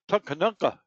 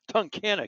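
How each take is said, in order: First: The name ends with the sound 'nunka'. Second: The name ends with the sound 'nock'. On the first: The speaker calls it wrong. "Tunkanunka is what I used to say. I couldn't pronounce it" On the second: The speaker calls it right. "I finally got it straight"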